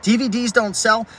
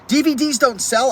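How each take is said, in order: First: Mild sarcastic parroting, a bit higher; scoffing repeat of the comment; mocking quote. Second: Quoting critics in a higher, scoffing voice; higher sarcastic parroting; mocking quote. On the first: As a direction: repeat the critics' line dismissively. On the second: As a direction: throw their words back with a sneer.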